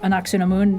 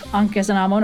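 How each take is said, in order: First: The second syllable is said as 'su'. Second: The second syllable is said as 'khe'. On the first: This is the newer form of the name. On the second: This is the older form of the name.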